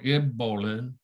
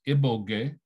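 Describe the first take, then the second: First: It has a plain b and a lateral flap. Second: It has a plain b and a plain g. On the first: "G goes to G or this flap L" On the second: "B goes to B or br"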